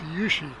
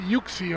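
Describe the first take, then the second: First: The middle consonant sounds like 'sh'. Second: The middle consonant sounds like 'ks'. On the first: The speaker calls it right. "I think it's Yushi. That's the way you say it" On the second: The speaker calls it wrong. "I used to say it very, very wrong"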